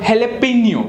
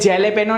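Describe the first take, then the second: First: It begins with an H sound. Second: It begins with a J sound. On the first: The speaker calls it right. "That जे is pronounced as ह and not ज" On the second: The speaker calls it wrong. "उसे बोलते हैं जैलेपेनो, नहीं बोलते"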